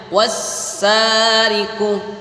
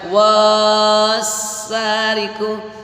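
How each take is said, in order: First: The first vowel is short. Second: The first vowel is held long. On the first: The speaker calls it right. "Jadi cara membacanya wassariku" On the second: The speaker calls it wrong. "nggak boleh dibaca wassariku"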